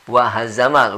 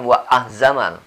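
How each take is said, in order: First: The h sound starts the syllable after wa. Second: The h sound comes after the vowel. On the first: The speaker calls it right. "Wa hazamal, bukan wa ahzamal" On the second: The speaker calls it wrong. "bukan wa ahzamal"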